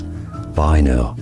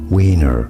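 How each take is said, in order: First: The name has a German pronunciation. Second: The name has an English pronunciation. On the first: "in German, this is said as Wiener" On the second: "name is pronounced as Wiener"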